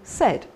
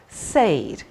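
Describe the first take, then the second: First: The vowel is a short 'e' sound. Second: The vowel is a long 'ay' sound. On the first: This is the modern pronunciation. "gradually we've turned it into said" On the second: This is the older pronunciation. "perhaps we used to say"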